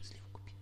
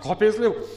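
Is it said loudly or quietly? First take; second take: quietly; loudly. First: It is said quietly and calmly. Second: It is said loudly, almost shouting.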